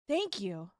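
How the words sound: It is said in a warm, supportive tone. The speaker is grateful and encouraging. "supportive for thank you would be like"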